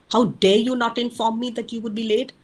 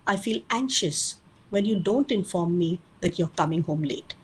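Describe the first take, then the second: First: A mild demo of a blaming parent; accusing demo. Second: Said in the usual way. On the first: Shown as a demonstration. Parent scolding a teen for coming home late, mildly accusing. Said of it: "Here you're screaming, yelling, accusing, and blaming". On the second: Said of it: "in the say category, you're giving your feeling".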